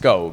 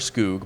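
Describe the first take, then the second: First: The vowel sounds like an 'oh'. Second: The vowel sounds like a long 'oo'. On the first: The speaker calls it right. "it's Skog. We're going with the official pronunciation" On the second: The speaker calls it wrong. "really disappointed that it's not Wilmer Skoog"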